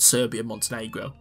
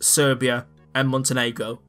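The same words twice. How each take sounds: First: The names run together without a pause. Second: The names are split by a pause. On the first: One single country. "not Serbia and Montenegro" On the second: Two separate countries. "it was just Serbia and Montenegro"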